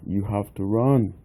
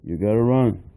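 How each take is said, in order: First: Full words, in a British-style English manner. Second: Reduced to gotta, in an American manner.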